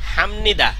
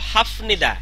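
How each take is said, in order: First: An m sound comes before nida. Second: A p sound comes before nida. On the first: The speaker calls it right. "কিন্তু না, হয়েছে কি হামনিদা" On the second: The speaker calls it wrong. "হওয়ার কথা ছিল হাফনিদা"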